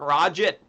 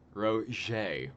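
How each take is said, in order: First: The name ends with a clear t sound. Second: The name ends without any t sound. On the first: The speaker calls it wrong. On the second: The speaker calls it right.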